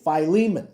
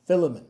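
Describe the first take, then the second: First: "Philemon" declared firmly as fy-LEE-mun, louder; preferred fy-LEE-mun. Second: "Philemon" as FIL-uh-mun, stressed on the first syllable; rejected FIL-uh-mun. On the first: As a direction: say "Philemon" loudly with long i, stress on LEE. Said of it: "This is how you say it". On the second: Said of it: "Don't say it like John". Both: Shown as a demonstration.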